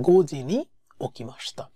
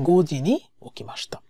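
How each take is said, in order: The two takes are said the same way.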